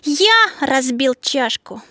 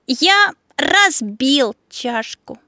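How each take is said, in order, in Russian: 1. Смысловое ударение падает на слово «я». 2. Смысловое ударение падает на слово «разбил». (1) "На слове «я»" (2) "И сделаешь ударение на слове «разбил»"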